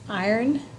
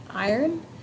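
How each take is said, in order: Both takes have the same delivery.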